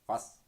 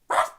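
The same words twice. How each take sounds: First: It is said at a low pitch. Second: It is said at a high pitch.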